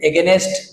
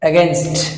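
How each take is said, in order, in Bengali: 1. শেষের st-এর আগে একটি অতিরিক্ত স্বরধ্বনি আসে। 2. n সরাসরি শেষের st-এর সঙ্গে মিশে যায়। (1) "এগেনেস্ট যেটা বলি আমরা ভুল" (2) "সঠিক উচ্চারণ রাইট প্রনাউন্স এগেনস্ট"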